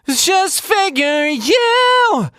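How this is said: It is voiced in a blended mixed voice. The speaker calls it right. "it's a mixed voice up here"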